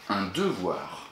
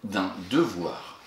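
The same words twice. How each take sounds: First: "Un devoir" dit lentement et détaché pour la dictée; dictée du mot. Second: Said in the usual way. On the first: Shown as a demonstration. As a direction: articule "Un devoir" syllabe par syllabe. (ton de dictée, "Un devoir" posé et articulé) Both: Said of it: "il s'agit".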